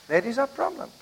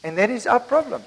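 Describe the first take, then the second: First: Dropped to a near hush on the repeat; quiet repeat. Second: Said in the usual way. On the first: Shown as a demonstration. Preacher repeating his point, much softer. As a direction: say it again, much softer, letting it sink in.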